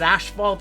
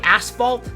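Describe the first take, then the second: First: It is pronounced the Canadian-Australian way. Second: It is pronounced the American way. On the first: "I've always said asphalt. It's just a Canadian thing and an Australian thing" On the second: "I know you guys say asphalt. It's probably the proper way to say it"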